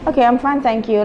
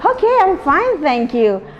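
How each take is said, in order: First: It is said flatly, without expression. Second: It is said with lively expression.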